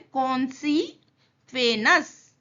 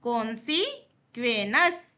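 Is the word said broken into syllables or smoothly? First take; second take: broken up; broken up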